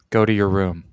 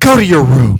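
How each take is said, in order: First: It sounds angry at the hippies, not the boy. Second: It sounds angry at the boy himself.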